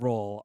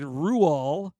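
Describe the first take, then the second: First: The name is said like the English word roll. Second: The name is said with a Norwegian pronunciation. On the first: "we're going with roll on this" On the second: "which is the Norwegian way of saying it"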